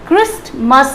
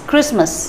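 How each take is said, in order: First: The word is said with a t sound. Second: The word is said with no t sound. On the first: The speaker calls it wrong. "ये क्रिस्टमस नहीं होगा" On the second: The speaker calls it right. "टी को silent"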